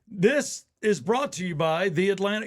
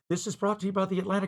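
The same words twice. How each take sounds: First: The phrase is spoken slowly. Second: The phrase is spoken quickly. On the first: "I'll say it slow" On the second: "you say it fast"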